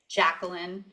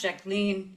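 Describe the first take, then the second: First: The name is said in an American way. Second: The name is said in a French way. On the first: "but the American... people say Jacqueline" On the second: "and then the French Jacqueline"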